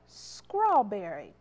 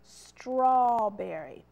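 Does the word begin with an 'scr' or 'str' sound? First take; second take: scr; str. First: The word begins with an 'scr' sound. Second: The word begins with an 'str' sound. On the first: The speaker calls it wrong. "It's not scrawl, S-C-R" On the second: The speaker calls it right. "it's straw. That blend there, the S-T, and adding that R is str"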